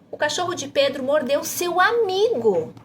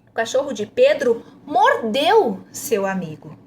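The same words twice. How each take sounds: First: The emphasis falls on "amigo". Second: The emphasis falls on "mordeu". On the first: "para você enfatizar seu amigo" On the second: "A próxima ênfase é em mordeu"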